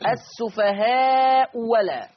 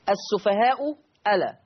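First: The second hamza is replaced by a w sound. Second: The second hamza is a clear glottal stop.

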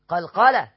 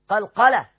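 Both takes have the same delivery.

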